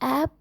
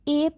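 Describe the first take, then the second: First: The vowel sounds like the a in cat. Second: The vowel sounds like the e in bet. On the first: The speaker calls it right. "ऐप पढ़ेंगे" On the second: The speaker calls it wrong. "एप नहीं"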